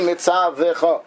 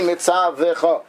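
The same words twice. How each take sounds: First: A short vowel is heard after the v sound. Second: The same.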